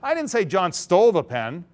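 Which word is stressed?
stole. The stress is on stole.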